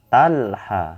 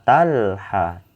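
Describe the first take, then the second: Both takes have the same delivery.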